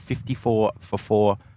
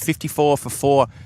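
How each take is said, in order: First: The phrase is said at a slower pace. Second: The phrase is said at a quicker pace.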